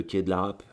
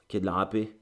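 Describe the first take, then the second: First: « Rape » dit sans le é final, coupé net; lâche « Rape » d'un coup, en une syllabe; nom mal prononcé. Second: « Rapée » avec le é final bien dit, en montant; correction du nom. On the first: (« quai de la Rape », sans le é) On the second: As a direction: se corrige en appuyant le « pée » de « Rapée ». (« Rapée » rectifié, deux syllabes nettes) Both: Real, not acted.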